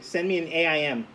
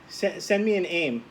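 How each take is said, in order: First: AIM is spelled out letter by letter. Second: AIM is said as a single word. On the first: "or do you do this?" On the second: "do you do this"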